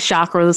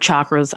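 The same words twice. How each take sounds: First: The first sound is soft. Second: The first sound is hard. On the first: "some people say chakras" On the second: "some people pronounce it hard"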